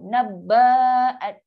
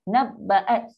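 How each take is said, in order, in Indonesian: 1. Vokal setelah bb panjang. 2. Vokal setelah bb pendek. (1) "Baca ba tu panjang" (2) "satu akad saja"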